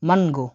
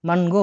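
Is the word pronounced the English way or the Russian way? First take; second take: Russian; Russian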